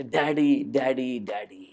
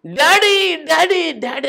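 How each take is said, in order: First: Said in the usual way. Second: High frantic cries, fading on the last; screaming for daddy. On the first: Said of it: "నేను ఇదేం చెప్తానంటే". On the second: Retold or imitated. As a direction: cry out for daddy in panic. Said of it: "అని కేకలేసి". (భయంతో daddy అని అరుపులు)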